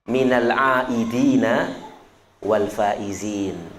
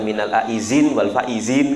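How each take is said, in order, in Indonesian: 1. Kata kedua berakhir dengan bunyi 'dina' penuh. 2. Kata kedua memakai bunyi 'z', bukan 'd'. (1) "Harus fasih ya"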